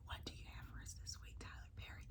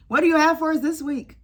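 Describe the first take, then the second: First: Fast whispered repeat. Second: Higher and louder appeal; loud mock plea; calling out. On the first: Pretend. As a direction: hush it right down. Same question, whispered after shout. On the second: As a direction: call out to the showrunner. Calling out to Tyler Perry.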